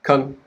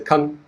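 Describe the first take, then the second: First: The syllable is quick and reduced. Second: The syllable is quick and reduced.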